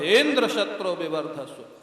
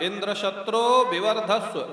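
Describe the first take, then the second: First: The high pitch falls on the word's first syllable. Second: The high pitch falls on the word's last syllable. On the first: The one whose slayer is Indra should grow. The speaker calls it wrong. "Indra का नाम आते ही जोर स्वर ऊंचा चला जाता था, उदात्त हो" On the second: The one who slays Indra should grow. The speaker calls it right. "बोलना चाहिए था अंतोदात ... ऐसे बोलना चाहिए था"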